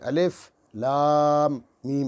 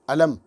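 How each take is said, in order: First: Each letter name is said separately. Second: The letters are joined into one word. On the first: The speaker calls it right. "ऐसे पढ़ते हैं, काट काट के पढ़ते हैं" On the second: The speaker calls it wrong. "मिला के नहीं पढ़ते हैं"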